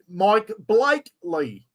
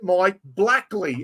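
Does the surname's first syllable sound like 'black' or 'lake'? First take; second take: lake; black. First: The surname's first syllable sounds like 'lake'. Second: The surname's first syllable sounds like 'black'. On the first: The speaker calls it right. "Sounds like Lake" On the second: The speaker calls it wrong. "as in the colour"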